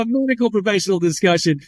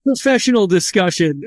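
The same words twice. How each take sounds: First: Ironic laugh. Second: Said in the usual way. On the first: Real, not acted.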